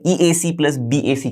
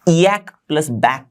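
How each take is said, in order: First: Each letter is spelled out separately. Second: The letters are blended and read as words. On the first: It is the intended, ordinary reading. "मेरा मतलब है" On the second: It is said playfully for fun. "अब मैं जानबूझ के ऐसे pronounce कर रहा हूं, उसको थोड़ा मजा आए इसीलिए"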